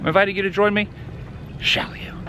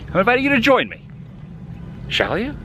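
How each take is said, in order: First: The invitation is delivered in a scary, unsettling way. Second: The invitation is delivered in a friendly, pleasant way. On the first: The speaker calls it wrong. "I was scared of the first one" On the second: The speaker calls it right. "That's better"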